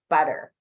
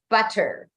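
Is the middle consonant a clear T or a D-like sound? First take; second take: D-like sound; clear T. First: The middle consonant is a soft D-like flap. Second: The middle consonant is a full, crisp T. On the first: The speaker calls it wrong. "Don't, for example, say T's as D's. not butter. That's a very American thing" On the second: The speaker calls it right. "It is butter"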